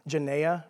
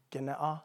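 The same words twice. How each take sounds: First: "genea" said juh-NAY-uh, drawn out slowly; Texan pronunciation. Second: "genea" with a hard g, GEN-eh-ah; correct pronunciation. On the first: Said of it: "that's how I say it with my Texan accent". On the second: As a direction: say "genea" with a hard g, rising end. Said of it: "I think it's actually". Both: Shown as a demonstration.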